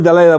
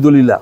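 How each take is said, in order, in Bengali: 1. নামটি da-LAI-la হিসেবে উচ্চারিত হয়। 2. নামটি do-li-la হিসেবে উচ্চারিত হয়। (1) "ইংরেজি দালাইলা বলে" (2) "আমি বাংলায় বলি দলিলা"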